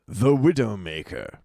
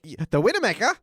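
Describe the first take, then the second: First: It is said in a plain American accent. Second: It is said in a put-on foreign accent.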